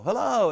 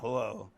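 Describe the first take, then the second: First: It sounds excited and happy to see someone. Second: It sounds miserable and reluctant to see someone.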